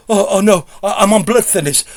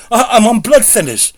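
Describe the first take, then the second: First: Panicking. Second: Rising panic. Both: Retold or imitated. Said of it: "And she's panicking".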